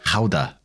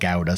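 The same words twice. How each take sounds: First: It is said with a Dutch pronunciation. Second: It is said with an English pronunciation. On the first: "the proper pronunciation of Netherlands" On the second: "some English pronounce it Gouda"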